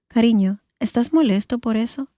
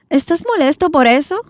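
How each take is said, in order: First: The voice stays neutral and falls at the end. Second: The voice rises sharply at the end.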